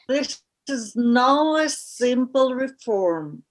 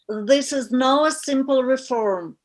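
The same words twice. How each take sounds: First: It is said very slowly. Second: It is said at normal speed.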